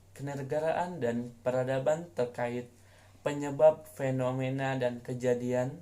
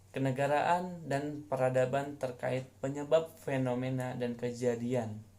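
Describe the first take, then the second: Both takes have the same delivery.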